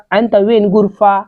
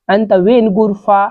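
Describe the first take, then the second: No difference in how they are said.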